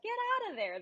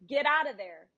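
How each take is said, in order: First: It is said in a warm, positive tone. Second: It is said in a harsh, scolding tone. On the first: "they're going to start wagging their tail, you know, with that positive" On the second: "if you say"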